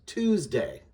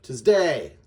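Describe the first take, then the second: First: Tuesday as "TUES-day", first syllable punched; Tuesday stressed up front. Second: Tuesday as "tuhz-DAY", day punched; wrongly stressed Tuesday, weight on DAY; stress on second syllable. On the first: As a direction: lean on TUES, let day fall. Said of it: "which emphasis is the syllable on". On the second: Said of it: "instead of". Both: Shown as a demonstration.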